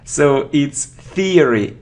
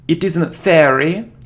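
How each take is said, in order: First: The first syllable has an 'ear' sound. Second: The first syllable lacks an 'ear' sound. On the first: The speaker calls it right. "ear, ear" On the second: The speaker calls it wrong.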